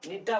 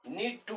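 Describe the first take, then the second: First: The words blend into one reduced word. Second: Both words are said fully and separately.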